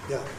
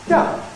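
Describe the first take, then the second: First: The pitch falls from a low starting point. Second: The pitch falls from a high starting point. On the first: "The low fall doesn't" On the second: "the high fall starts high up"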